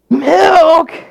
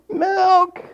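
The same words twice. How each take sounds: First: It is shouted loudly. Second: It is said at a normal volume.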